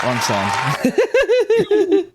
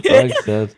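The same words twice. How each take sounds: First: High, laughing wrong-sound squeak; comic high-pitched slip; squeaky high mistake. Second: Said in the usual way. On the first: Shown as a demonstration. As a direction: pop up high and crack into a laugh.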